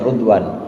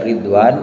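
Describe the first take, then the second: First: The first syllable has a 'u' vowel. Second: The first syllable has an 'i' vowel. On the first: "wa dhammiha" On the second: "bikasri ra"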